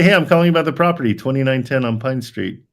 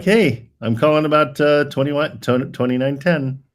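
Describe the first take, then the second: First: Breeze through the opening like it's easy; fast upbeat opener. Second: Brighter, higher demo of the opening line, slowing on the address; upbeat call opener. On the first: Coach demonstrates a fast, cheerful call opening. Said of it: "just say". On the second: Coach shows the agent how to open the call, upbeat. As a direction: sell the opener with a lift in the voice. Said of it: "You can just start off like". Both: Shown as a demonstration.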